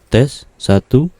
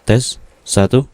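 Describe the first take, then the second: Both takes have the same delivery.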